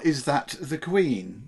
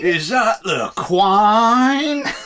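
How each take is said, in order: First: It is said in a plain standard accent. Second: It is said in a broad Cockney accent.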